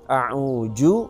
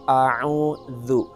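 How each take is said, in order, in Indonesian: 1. Konsonan tengahnya adalah bunyi j. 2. Konsonan tengahnya adalah bunyi th lembut. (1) "maka ini huruf ja" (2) "Jadi kita membaca a'udzu"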